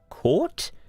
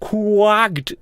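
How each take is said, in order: First: The word sounds like 'caught', without a k-sound. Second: The word sounds like 'quacked', with a k-sound. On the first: The intended standard pronunciation. The speaker calls it right. "oh, that's how you pronounce it" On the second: A learner's mistaken pronunciation. The speaker calls it wrong. "And he literally did that with his mouth"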